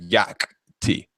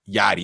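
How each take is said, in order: First: The name is said with a clear k sound. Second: The name is said without a k sound. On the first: "instead of yak t" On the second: "they just say yachty"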